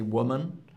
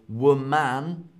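First: The last syllable is reduced, like 'mun'. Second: The last syllable sounds like 'man'. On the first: The speaker calls it right. "but we say woman" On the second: The speaker calls it wrong. "So woman"

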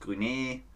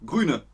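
First: The final e is clearly and fully pronounced. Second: The final e is weak and nearly swallowed. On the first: The speaker calls it wrong. "nicht grüne" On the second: The speaker calls it right. "Das E wird ein bisschen verschluckt"

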